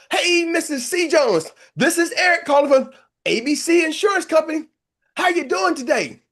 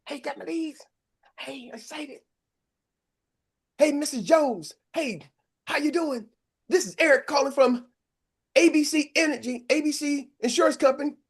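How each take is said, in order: First: Higher, louder pleading sales pitch with a catch of crying; begging the next lead on the list to be the right one; desperate cold call. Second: Higher, eager cold-call opener; like a rookie agent who has just got fresh leads; eager new agent. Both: Retold or imitated. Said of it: "you're like".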